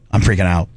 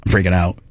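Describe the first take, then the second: No difference in how they are said.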